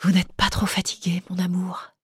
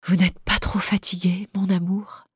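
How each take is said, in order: First: Soft veiled whisper, unvoiced; much softer whispered tenderness; murmured. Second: With a contained smile. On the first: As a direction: breathe it tenderly, a hushed caress. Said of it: "une voix chère, un peu voilée, murmure". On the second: Acted. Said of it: "répéta comme pour elle-même, avec un sourire contenu".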